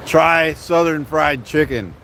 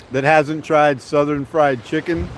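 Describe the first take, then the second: First: "Try Southern Fried Chicken" slow, each word weighted; slow emphatic recommendation. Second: Said in the usual way. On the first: Real, not acted. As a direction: lean on "Try", then "Southern Fried Chicken" spelled out slowly.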